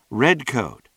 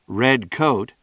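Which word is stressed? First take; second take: red; coat. First: The stress is on red. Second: The stress is on coat.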